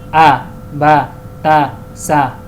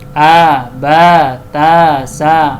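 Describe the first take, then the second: First: The vowels are kept short. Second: The vowels are drawn out long. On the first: The speaker calls it right. "cara baca yang pendek itu" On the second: The speaker calls it wrong. "nah, itu salah"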